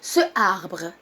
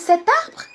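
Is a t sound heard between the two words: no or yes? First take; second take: no; yes. First: Two vowels meet with no linking sound. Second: A t sound links the two words. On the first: The speaker calls it wrong. "Deux voyelles qui se suivent vont être lourds" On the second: The speaker calls it right. "la plus légère dans la prononciation? Bien sûr, cet arbre"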